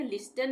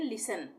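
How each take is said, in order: First: लिस्टन with the t sounded; wrong pronunciation. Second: लिसन with no t, lis-an; silent t. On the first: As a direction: say लिस्टन as lis-tan, t clearly spoken. (लिस्टन में टी बोलकर गलत उच्चारण) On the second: (लिसन बिना टी के) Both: Shown as a demonstration. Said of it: "लिस्टन नहीं पढ़ेंगे".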